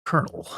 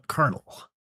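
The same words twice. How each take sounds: First: Lower, softer soldier voice; Solid Snake. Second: Softer, higher soldier voice; Solid Snake. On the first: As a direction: say it low like a terse soldier. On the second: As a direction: quietly call the colonel. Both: Pretend. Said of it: "I can't really nail it right without seeing it on screen".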